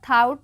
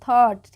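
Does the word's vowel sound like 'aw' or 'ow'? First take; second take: ow; aw. First: The vowel sounds like 'ow' in 'out'. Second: The vowel sounds like 'aw' in 'law'. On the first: The speaker calls it wrong. "थाउट नहीं पढ़ेंगे" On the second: The speaker calls it right.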